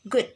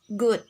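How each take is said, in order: First: The vowel is a short u sound. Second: The vowel is a long u sound. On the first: The speaker calls it right. "Example on the word is good" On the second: The speaker calls it wrong. "but students pronounce this word good"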